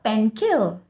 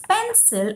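First: The second syllable begins with a k sound. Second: The second syllable begins with an s sound. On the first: The speaker calls it wrong. "and not" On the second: The speaker calls it right. "So this is a soft C sound"

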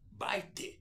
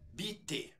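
First: The vowel sounds like 'eye', one syllable. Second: The vowel sounds like 'ee', two syllables. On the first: This is the newer way of saying it. "Ele começou a falar como baite" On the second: This is the older way of saying it. "Um falante começou a falar a palavra bitte"

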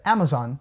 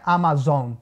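First: All vowels are short and the word is quick. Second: Some vowels are long and the word is slower. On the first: The speaker calls it right. "Todas as vogais nessa palavra, elas são short vowels... ela sai rapidinho da sua boca. É Amazon" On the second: The speaker calls it wrong. "não é Amazon"

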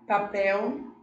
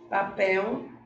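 No difference in how they are said.

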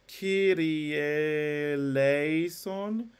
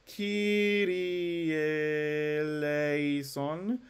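No difference in how they are said.

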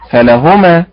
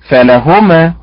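First: The stress falls on the first syllable. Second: The same.

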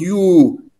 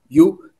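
First: The vowel is said long. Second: The vowel is said short.

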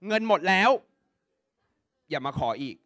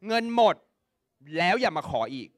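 First: The pause falls right after the word 'laeo'. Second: The pause falls right before the word 'laeo'. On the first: The mother's money has run out. "เงินใครหมดเงินแม่หมดแล้วถูกปะ" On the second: The child's money has run out. "เงินใครหมดเงินลูกหมดถูกปะ"

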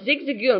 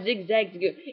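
First: The name is said with no extra 'za' syllable. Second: The name is said with an extra 'za' syllable. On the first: The speaker calls it right. "No, it's Zigzagoon" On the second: The speaker calls it wrong. "not Zigzagoon"

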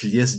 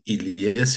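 First: The name begins directly with the 'l' sound. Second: The name begins with an 'ee' vowel. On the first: This is the shortened form used by the family. "on a éludé donc, le I ... on prononce Lies directement" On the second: This is the original Arabic form of the name. "en arabe, c'est Ilies"

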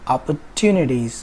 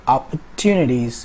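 Both takes have the same delivery.

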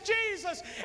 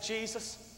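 First: It is said loudly, with conviction. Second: It is said quietly, with doubt.

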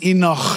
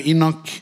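First: The ending is a rough, throaty sound. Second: The ending is a plain hard k sound. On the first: "the real pronunciation is Enoch. You got to have a bit of phlegm in it" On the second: "I just say the Italian way, like Nocchi"

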